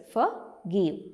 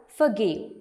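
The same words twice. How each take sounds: First: "forgive" split into two beats; syllable by syllable. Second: Said in the usual way. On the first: Shown as a demonstration. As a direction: say "forgive" as for, pause, give. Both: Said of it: "There are two syllables".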